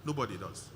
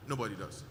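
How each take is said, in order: Both takes have the same delivery.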